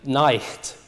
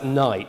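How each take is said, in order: First: A throaty ch sound comes before the t. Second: It has no throaty sound before the t.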